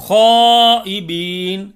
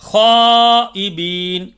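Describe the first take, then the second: No difference in how they are said.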